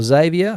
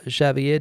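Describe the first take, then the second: First: Xavier said English-style, as "ZAY-vee-uh"; English pronunciation. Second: Xavier said Spanish-style, as "shah-vee-EH"; Spanish pronunciation. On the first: Streamer offering the viewer's name the English way, ZAY-vee-uh for Xavier. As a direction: say Xavier with an opening Z and stressed ZAY. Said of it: "however you, uh, pronounce your name". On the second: Streamer addressing a chat viewer, Xavier in Spanish pronunciation. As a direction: say Xavier with an opening SH and stressed final EH. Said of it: "using the Spanish pronunciation there". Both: Real, not acted.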